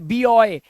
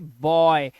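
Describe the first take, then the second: First: It is said as two syllables, bee-oy. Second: It is said as one syllable, boy. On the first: The speaker calls it wrong. "यहां पर ये बीओय नहीं है" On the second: The speaker calls it right. "तो हम इसे पढ़ेंगे बॉय"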